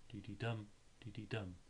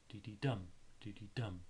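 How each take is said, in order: First: Softer "de-de-dum", still stressing dum; teacher repeating the anapest softly; de-de-dum rhythm, quieter. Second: "de-de-dum" with two light beats and a strong last; teacher chanting an anapest; de-de-dum rhythm. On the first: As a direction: murmur "de-de-dum" with the weight on dum. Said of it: "the stress being on the dum". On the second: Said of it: "two unstressed beats to one stressed one". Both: Shown as a demonstration.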